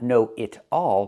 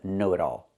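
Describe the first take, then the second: First: The middle consonant is a clear, crisp T. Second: The middle consonant is a fast, soft D. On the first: The speaker calls it wrong. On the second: The speaker calls it right. "The T changes to a fast D because it's between vowels"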